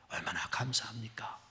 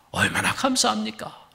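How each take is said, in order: First: Much softer whispered repeat. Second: Said in the usual way. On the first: Real, not acted. Preacher repeating his thanks to the congregation, in a whisper. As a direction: drop to a breath on 감사합니까. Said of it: "same line repeated, whispered". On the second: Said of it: "repeated as a whisper".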